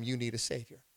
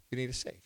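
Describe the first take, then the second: First: Quiet emphasis. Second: Soft echo. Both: Real, not acted. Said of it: "repeated quieter".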